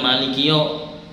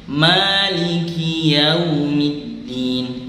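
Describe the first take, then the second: First: The vowel is a plain o sound. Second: The vowel glides from a toward u. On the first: The speaker calls it wrong. "Jadi bukan maliki yo" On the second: The speaker calls it right. "tapi maliki yaumiddin"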